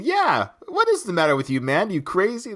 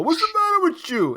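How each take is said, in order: First: Lightly acted sparring partner chiming in; mild mock challenge, pitch raised; a touch of imitated indignation; Benson. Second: Very high mock scolding; high-pitched impression of a boxer's outburst; Rocky. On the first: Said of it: "And then Benson kicks in". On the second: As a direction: imitate an exasperated trainer, pitch way up. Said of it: "So Rocky's caught that on from Apollo".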